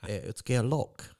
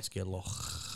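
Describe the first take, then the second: First: It is said in an English accent. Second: It is said in a Scottish accent.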